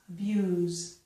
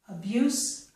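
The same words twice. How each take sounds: First: The word ends with a z sound. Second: The word ends with an s sound.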